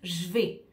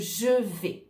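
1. La voyelle de je est supprimée. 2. La voyelle de je est prononcée. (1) "on perd le « e » ici et on a tendance à dire" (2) "au lieu de"

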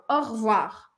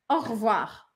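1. O primeiro e de revoir é omitido. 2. O primeiro e de revoir é omitido.

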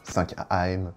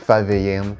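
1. Le titre se lit à la française. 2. Le titre se lit à l'anglaise.

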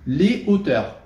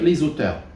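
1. Il n'y a pas de son z devant le nom. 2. Un son z lie l'article au nom. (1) "sans faire la liaison" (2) "Je ne vais pas dire les auteurs"

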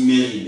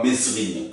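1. Le s du milieu est muet. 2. Le s du milieu est prononcé. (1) "ça se dit Mérine" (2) "et non pas Mesrine, comme tous le disent"

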